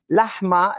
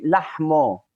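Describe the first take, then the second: First: "lahma" ending in an a vowel; standard lahma. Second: "lahmo" ending in a long o; Western Aramaic lahmo. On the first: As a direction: end "lahma" on ah. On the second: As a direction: end "lahmo" on a rounded oh. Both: Shown as a demonstration. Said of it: "instead of saying we say lahmo".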